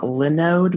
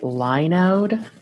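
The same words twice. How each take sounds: First: The first syllable sounds like Linux. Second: The first syllable does not sound like Linux. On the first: The speaker calls it wrong. "not Linode because if it gets too close to Linux" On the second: The speaker calls it right. "supposed to pronounce it Linode"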